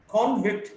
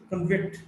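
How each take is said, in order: First: "convict" as CON-vict; stress on first syllable. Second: "convict" as con-VICT; weak start, strong VICT in "convict"; stress on second syllable. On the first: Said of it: "stressed in the first syllable". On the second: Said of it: "stressed in the second syllable". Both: Shown as a demonstration.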